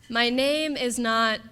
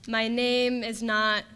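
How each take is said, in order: The two takes are said the same way.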